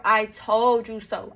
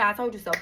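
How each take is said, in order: First: Mock I told you so, slow and louder. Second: Said in the usual way. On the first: Her man saying it, slow and mocking. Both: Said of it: "I did not wanna hear".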